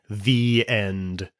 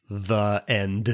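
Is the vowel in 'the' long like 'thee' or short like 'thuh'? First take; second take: thee; thuh. First: 'The' is said with a long 'ee' vowel. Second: 'The' is said with a short 'uh' vowel. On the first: The speaker calls it right. "the E vowel should be long" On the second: The speaker calls it wrong. "with a short E vowel"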